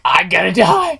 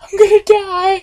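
First: Said in the usual way. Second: Much higher squealed panic; hammed-up frightened squeal; mock panic. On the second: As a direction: squeak it like a terrified kid. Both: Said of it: "I'm like".

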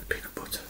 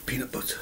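First: Fading unvoiced whisper; softer whisper. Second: Breathy whisper of relief. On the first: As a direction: let it fade to a breath. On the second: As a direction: breathe the words out. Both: Real, not acted. Whispered repetition.

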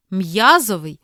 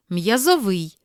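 First: М'язовий as MIA-zovyi; first-syllable stress. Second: М'язовий as miazo-VYI; last-syllable stress. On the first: Teacher reading double-stress words, first-syllable stress on М'язовий. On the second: Teacher giving the other variant, final stress on м'язовий. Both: Shown as a demonstration. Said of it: "слова із подвійним наголосом".

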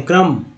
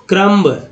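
First: क्रम as "kram", closed on m; silent B. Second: क्रम्ब with the final b sounded; mispronounced with B. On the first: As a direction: say क्रम with no b at the end. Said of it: "क्रम पढ़ें". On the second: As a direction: release the b clearly at the end of क्रम्ब. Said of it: "क्रम नहीं पढ़ेंगे". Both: Shown as a demonstration.

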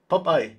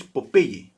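First: Popeye said POP-eye, loud; English pronunciation. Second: Popeye said the Spanish way, po-PEH-yeh; Spanish pronunciation. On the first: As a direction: punch out Popeye as two syllables, POP-eye. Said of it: "would be the way to pronounce it". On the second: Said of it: "in Spanish it's Popeye". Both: Shown as a demonstration.

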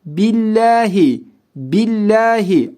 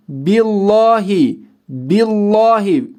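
First: Billahi with the lam light and thin; correct thin lam. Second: Billahi wrongly read with a thick, dark lam. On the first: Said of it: "Kalın değil, ince". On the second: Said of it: "Şöyle okumuyorum". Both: Shown as a demonstration.

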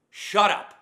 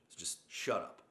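First: Huge, high, full-throated yell of shut up; full-force shout. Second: Said in the usual way. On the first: Real, not acted. Ranting at complaining Marines, screaming at full force. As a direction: scream it with everything you've got. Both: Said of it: "God, that felt so good".

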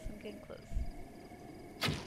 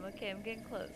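First: Slow sneaky whisper; hushed creeping whisper. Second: Said in the usual way. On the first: Pretend. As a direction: breathe it out slowly while sneaking up.

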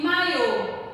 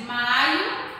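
First: "maiô" as mai-Ô, closed final o; stress on final syllable. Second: "Maio" as MAI-o, louder, weak final o; stress on first syllable. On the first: Teacher showing the accented word, stressed final Ô in "maiô". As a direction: land firmly on the last syllable of "maiô". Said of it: "Olha só o tom que mudou a palavra". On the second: Teacher showing the word without accent, stressed MA in "Maio". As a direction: punch the MA of "Maio". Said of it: "sem o acento". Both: Shown as a demonstration.

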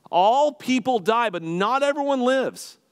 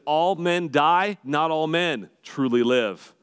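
First: High, loud, slow declaration; shouting the line. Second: Quoted slow and measured, a little raised; slow quote. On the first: Real, not acted. Pastor urging the congregation, a loud slow proclaimed cry. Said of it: "to yell that out to you". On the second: Shown as a demonstration. Pastor quoting Braveheart, a slow measured line. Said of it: "Here's what he said".

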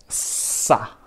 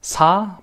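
First: "sa" with a long hissed, tense s. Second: "sa" with a light, relaxed s; plain normal SA. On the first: Teacher showing students that sound, tense hissed sa. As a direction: hold the s, then a short tight a. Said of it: "es como haces s". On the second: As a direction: say sa easily, vowel lifted. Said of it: "piensa que sa normal". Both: Shown as a demonstration.

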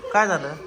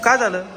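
First: Said in the usual way. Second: Worried question. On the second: Real, not acted. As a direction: ask it sharply, alarmed. Father asks crying child.

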